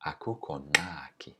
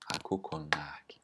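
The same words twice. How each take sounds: First: Said in the usual way. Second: Whisper. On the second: Shown as a demonstration. Whispered repeat of example.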